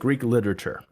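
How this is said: The pitch falls at the end. It closes the topic flatly.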